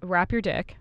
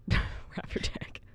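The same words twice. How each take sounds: First: Said in the usual way. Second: Slow whispered giggle; laughing whisper. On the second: Real, not acted. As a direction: breathe out Wrap your dick while laughing. Repeating partner's joke, laughing.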